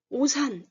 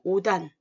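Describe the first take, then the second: First: The final consonant links over as an s sound. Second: The final consonant links over as a d sound. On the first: The speaker calls it wrong. "오산 이렇게 소리가 안 오고" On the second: The speaker calls it right. "대표 소리로 바뀌어서 오단 이렇게 소리가 난다"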